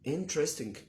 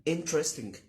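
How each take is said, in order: Both takes have the same delivery.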